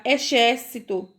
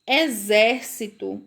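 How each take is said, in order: First: "exército" misread with sh for the x; "exército" with a hushing sh instead of z; wrong X sound. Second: "Exército" slowly, the x as a buzzing z; X with Z sound. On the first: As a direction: say "exército" as e-SHÉR-ci-to. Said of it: "se fosse o som do X". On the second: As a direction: say "Exército" as e-ZÉR-ci-to, drawn out. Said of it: "com o som do Z". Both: Shown as a demonstration.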